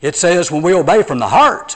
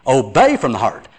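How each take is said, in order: First: HEART lifted and stressed at the end. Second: OBEY stressed, falling away after it. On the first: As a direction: land hard on the word "heart". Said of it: "the important word is heart". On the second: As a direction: put the weight on "Obey", not the last word. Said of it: "Brother, it says obey". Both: Retold or imitated.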